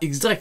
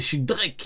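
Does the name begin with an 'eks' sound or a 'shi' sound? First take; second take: eks; shi. First: The name begins with an 'eks' sound. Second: The name begins with a 'shi' sound. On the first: The speaker calls it wrong. "c'est pas X-Drake" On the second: The speaker calls it right. "c'est Shidrek"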